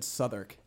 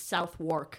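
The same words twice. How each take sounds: First: "Southwark" squeezed into "SUTH-erk"; local pronunciation. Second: "Southwark" slowly as "SOUTH-wark"; spelling pronunciation. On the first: Asking friends how to spell it, "Southwark" as "SUTH-erk". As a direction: say "Southwark" with a short first vowel and no w. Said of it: "how would you spell that". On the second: Explaining the spelling to a friend, "Southwark" as "SOUTH-work". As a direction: sound out "Southwark" as south plus work, w pronounced. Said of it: "It's literally Southwark". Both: Shown as a demonstration.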